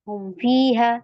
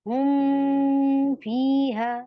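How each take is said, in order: First: The m is short and quick, without nasal hum. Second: The m is held long with a nasal hum. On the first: The speaker calls it right. "सिंपल पढ़ेंगी, जल्दी से पढ़ेंगी, नो खींचना।" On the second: The speaker calls it wrong. "आप ऐसे नहीं करेंगे इसमें। ... नो।"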